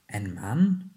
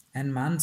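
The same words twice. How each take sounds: First: "Ein Mann" as an echo question, rising sharply on "Mann". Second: "Ein Mann" stated as an answer; statement. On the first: Mother queries the daughter's answer, "Ein Mann" rising as a question. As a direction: start low and lift "Mann" into a question. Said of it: "fragte ihre Mutter". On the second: Daughter answers her father, "Ein Mann" as a statement. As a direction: say "Ein Mann" as a reported finding, not a question. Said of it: "sagte Patricia". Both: A narrator's reading.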